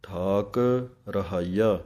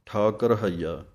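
First: ਠਾਕ ਤੇ ਰਹਾਈਆ ਵੱਖਰੇ ਵੱਖਰੇ; ਠਾਕ ਕਹਿ ਕੇ ਰੁਕੋ, ਫਿਰ ਰਹਾਈਆ; separate words. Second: ਠਾਕ ਰਹਾਈਆ ਜੋੜ ਕੇ, ਗਲਤ ਢੰਗ; ਠਾਕ ਨਾਲ ਰਾਰਾ ਜੋੜ ਕੇ ਬੋਲੋ; common mistake. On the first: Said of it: "ਇਹ ਅਲੱਗ ਪਾਠ ਹਨ". (ਦੋ ਵੱਖਰੇ ਪਾਠ ਬਣਾ ਕੇ ਉਚਾਰਨ) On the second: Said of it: "ਆਮ ਹੀ ਗਲਤੀ ਕੀ ਹੁੰਦੀ ਹੈ". (ਗਲਤੀ ਵਾਲਾ ਜੁੜਿਆ ਉਚਾਰਨ) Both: Shown as a demonstration.

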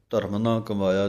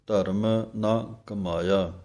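First: ਧਰਮ ਨਾ ਕਮਾਇਆ fast, run together; rushed, wrong. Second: ਧਰਮ ਨਾ ਕਮਾਇਆ with ਨਾ kept separate; slowly, word by word; words apart. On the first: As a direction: hurry through it carelessly. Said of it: "ਨਹੀਂ ਕਹਿ ਦੇਣਾ". (ਕਾਹਲੀ ਨਾਲ ਗਲਤ ਪਾਠ) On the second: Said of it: "ਇਹ ਵੱਖਰੇ ਪਾਠ ਹਨ". (ਵੱਖਰੇ ਕਰਕੇ ਪਾਠ) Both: Shown as a demonstration.

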